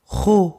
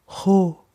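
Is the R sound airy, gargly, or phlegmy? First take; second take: phlegmy; airy. First: The R is a tense, phlegmy scraping sound. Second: The R is a soft, airy hissing sound. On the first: "the phlegmy air" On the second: "the airy cat hissing one"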